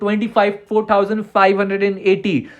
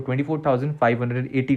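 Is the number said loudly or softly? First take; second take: loudly; softly. First: The number is said loudly. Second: The number is said softly and slowly. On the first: "जोर से बोल रहा हूं" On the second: "धीरे भी बोल देता हूं"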